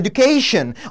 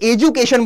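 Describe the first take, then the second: First: The word is said with an American accent. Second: The word is said with a British accent. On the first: "जो American accent वाले हैं वो बोलते हैं" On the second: "वो है भैया हमारे ब्रिटिश एक्सेंट वाले"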